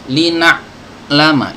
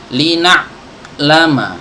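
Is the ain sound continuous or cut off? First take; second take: cut off; cut off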